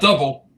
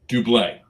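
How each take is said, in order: First: It is said like the English word double. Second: It is said with a final 'blay' ending. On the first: The speaker calls it wrong. "Not double" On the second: The speaker calls it right.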